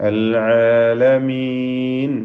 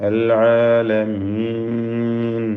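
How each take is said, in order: No difference in how they are said.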